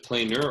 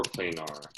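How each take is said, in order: First: "planar" ending in an unstressed -ner, like "planer"; "planar" rhyming with "trainer"; planar said "PLAY-ner". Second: "planar" with a full -ar ending; "planar" with an open "ah" before the final r; planar said "PLAY-nar". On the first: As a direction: say "planar" as PLAY-ner, with a reduced last vowel. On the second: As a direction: say "planar" as PLAY-nar, last syllable like "car". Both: Shown as a demonstration. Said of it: "Is it planar or planar?".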